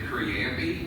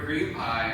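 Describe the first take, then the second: First: The ending is said like 'pee', as one word. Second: The ending is said like 'pie', as two words. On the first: The speaker calls it wrong. "I pronounced it creampy" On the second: The speaker calls it right. "a girlfriend of mine said the word cream pie"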